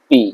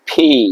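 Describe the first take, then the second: First: The P is said without a puff of air. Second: The P is said with a strong puff of air. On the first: The speaker calls it wrong. "Not পি" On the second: The speaker calls it right. "একটা বাতাস বের হবে"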